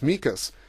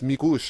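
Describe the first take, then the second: First: The name ends with a plain s sound. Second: The name ends with an sh sound. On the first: The speaker calls it wrong. "when he first came was Mikas" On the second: The speaker calls it right. "actually, it's Mikush"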